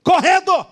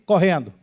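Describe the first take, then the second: First: High, sharp repeat of the order; acted shout to hurry someone; yelled command. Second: Said in the usual way. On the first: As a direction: pitch "correndo" way up. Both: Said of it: "Tô gritando contigo".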